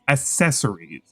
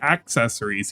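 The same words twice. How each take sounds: First: The first c is said with a plain s sound. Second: The first c is said with a ks sound. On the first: "He says accessories. So there's like four S, no, five S's" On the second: "he doesn't say accessories"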